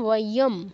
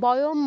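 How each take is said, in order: First: The word begins with a w sound. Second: The word begins with a b sound. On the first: The speaker calls it right. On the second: The speaker calls it wrong. "বয়ম বলবেন না"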